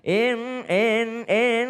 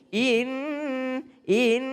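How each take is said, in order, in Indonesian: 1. Vokalnya agak mengarah ke bunyi e. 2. Vokalnya bunyi i yang murni dan jelas. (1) "seakan-akan in in in in ada e-nya di situ" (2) "benar-benar i"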